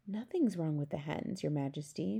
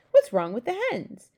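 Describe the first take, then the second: First: Soft, deferential murmur; whispered. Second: Loud, higher question; indignant demand. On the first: Servant answering the Queen discreetly, whispered. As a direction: answer under your breath. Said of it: "Mister Tibbs whispered". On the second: Queen questioning her servant about eggs, loud demand. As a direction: break in loudly, pitched up. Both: A narrator's reading.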